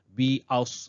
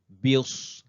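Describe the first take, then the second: First: An extra 'a' glide follows the 'bi'. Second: No extra glide follows the 'bi'. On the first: The speaker calls it wrong. "Lain bunyinya itu biaus. Nah, mana ada biaus?" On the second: The speaker calls it right. "jadi taruh saja"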